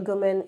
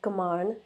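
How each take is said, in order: First: The name is said with an anglicized pronunciation. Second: The name is said with its Punjabi pronunciation.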